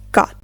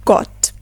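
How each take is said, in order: First: "gut" with an open AH, like gaht; American open O in "gut"; American pronunciation. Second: GOT with a short, rounded O; British rounded O in "got"; British pronunciation. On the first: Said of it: "In American English". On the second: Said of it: "while in British English". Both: Shown as a demonstration.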